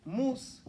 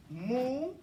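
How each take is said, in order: First: Mustaqim with a short stop after mus, tongue leaving the s; Arabic way. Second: Mustaqim said the usual way, holding the s into the ta; common way. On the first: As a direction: cut mus off crisply, then ta in Mustaqim. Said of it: "It goes like this". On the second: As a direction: run mus and ta together in Mustaqim. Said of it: "We say this". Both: Shown as a demonstration.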